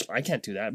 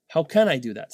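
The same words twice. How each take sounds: First: "I can't do that" dropped low and soft, giving up; deflated self-talk; defeated take. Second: Said in the usual way. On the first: Shown as a demonstration. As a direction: mutter "I can't do that" like you've already quit. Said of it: "rather than be like". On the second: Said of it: "be like".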